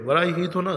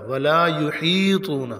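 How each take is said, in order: First: یحیطون with short ha; wrong pronunciation. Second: یحیطون with ہا lengthened, slow; correct pronunciation. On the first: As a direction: rush the ہا in یحیطون. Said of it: "ولا یحیطون غلط ہے". (غلط تلفظ یحیطون) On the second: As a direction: draw out ہا in یحیطون slowly. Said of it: "ہا کو تھوڑا سا لمبا کریں گے". (ہا لمبا کر کے) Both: Shown as a demonstration.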